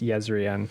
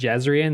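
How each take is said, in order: First: The name begins with a Y sound. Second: The name begins with a J sound. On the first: The speaker calls it right. "I think it's pronounced Yezrian" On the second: The speaker calls it wrong. "I think originally I tried to pronounce it Jezrian"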